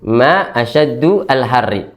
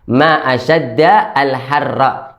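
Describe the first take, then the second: First: The vowel after asyadd is u. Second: The vowel after asyadd is a. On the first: It asks what is hottest, like a question. The speaker calls it wrong. "seakan putrinya itu ... mengucapkannya itu kayak bertanya" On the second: It exclaims amazement at the heat. The speaker calls it right. "Jadi dalnya fathah"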